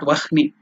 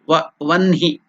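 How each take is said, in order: First: The h sound comes before the n. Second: The h sound comes after the n. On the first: The speaker calls it wrong. "not Vahni" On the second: The speaker calls it right. "you have to pronounce it as Vanhi"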